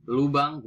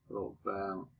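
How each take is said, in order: First: "lubang" with u first; standard pronunciation. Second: "lubang" with o for u; nonstandard pronunciation. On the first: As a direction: say lu-bang for "lubang". (ucapkan "lubang" dengan u) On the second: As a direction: say "lubang" as lo-bang, quieter. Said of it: "bukan lo". (ucapkan "lubang" menjadi lobang) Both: Shown as a demonstration.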